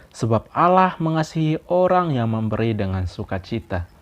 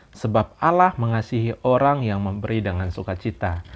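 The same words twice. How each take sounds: Both takes have the same delivery.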